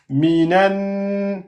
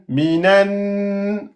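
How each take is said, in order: The two takes are said the same way.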